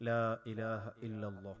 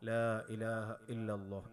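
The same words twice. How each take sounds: The two takes are said the same way.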